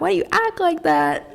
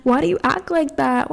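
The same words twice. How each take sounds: First: Higher, more incredulous repeat; much higher, baffled repeat; mock exasperated. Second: Exasperated question. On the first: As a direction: push the repeat up in pitch, baffled. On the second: Retold or imitated. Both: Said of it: "And I'm just like".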